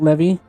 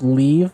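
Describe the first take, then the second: First: It sounds like "levy", with two syllables. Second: It sounds like "leave", with one syllable. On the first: The speaker calls it wrong. "so not levy" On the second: The speaker calls it right. "Pronounced leave"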